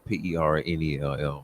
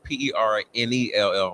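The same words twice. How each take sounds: First: It is spelled out in a deep announcer voice. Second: It is spelled out in an ordinary speaking voice.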